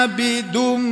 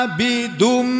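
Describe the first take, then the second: The two takes are said the same way.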